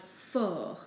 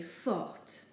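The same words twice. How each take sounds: First: FORT as "for", ending open; silent T. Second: FORTE ending in a clear T; sounded T. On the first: Teacher recalling word describing a man, silent T. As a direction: say masculine FORT without the T. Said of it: "when we're describing a man". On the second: Teacher adding E for a girl, sounded T. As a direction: say feminine FORTE as "fort", T heard. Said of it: "we do pronounce the T". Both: Shown as a demonstration.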